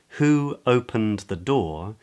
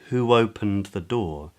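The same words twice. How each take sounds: First: No w sound joins the first two words. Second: A w sound joins the first two words.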